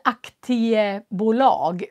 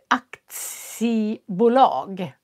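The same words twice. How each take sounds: First: The middle consonant is a plain t sound. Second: The middle consonant is a ts sound. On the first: The speaker calls it wrong. "man säger inte aktiebolag" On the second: The speaker calls it right. "utan det blir aktiebolag. Det blir K T S istället"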